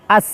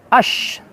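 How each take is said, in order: First: The s sound is light and plain. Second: The consonant is a hushing sh sound. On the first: "awas terkecoh menjadi pakai sin" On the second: "atau pakai shin, salah ya"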